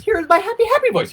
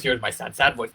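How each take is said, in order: First: Squeaky-high, loud happy voice. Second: Mock sad, dropped back down; overdone put-on sad voice. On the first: Coach mocking mirror practice, over-the-top happy voice. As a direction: overdo the happy, right at the top. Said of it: "Here is my happy voice". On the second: Coach mocking mirror practice, hammed-up sad voice. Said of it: "here is my sad voice". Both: Shown as a demonstration.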